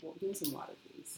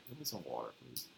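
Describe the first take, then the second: First: Soft mimic of his low-key request; mock-casual hushed plea; imitating his request. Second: Low, soft "water" in a casual request; understated, low-pitched "water"; own-accent water. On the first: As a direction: copy him under your breath, very soft. Mimics his quiet water request. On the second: Shown as a demonstration. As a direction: murmur "water" in your everyday twang, very quietly. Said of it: "I be just like".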